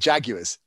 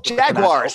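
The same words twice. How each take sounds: First: It is said with a British pronunciation. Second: It is said with an American pronunciation. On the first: "called the Jaguars the Jaguars" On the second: "they went, oh, Jaguars"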